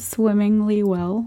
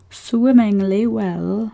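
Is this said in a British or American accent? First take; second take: American; British. First: It is said in the speaker's normal American accent. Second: It is said in a put-on British accent.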